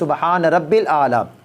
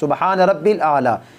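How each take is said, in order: First: The middle word is clipped to 'rabbil'. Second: The middle word is clipped to 'rabbil'.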